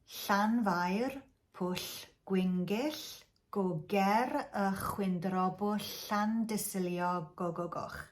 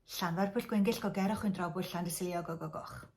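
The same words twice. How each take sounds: First: It is said slowly. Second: It is said fast.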